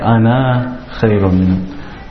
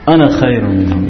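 First: The final vowel of 'ana' is long. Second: The final vowel of 'ana' is short. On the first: The speaker calls it wrong. "You don't make it" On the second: The speaker calls it right. "If you're continuing, you ignore the alif. You say"

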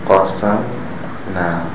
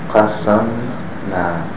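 The two takes are said the same way.

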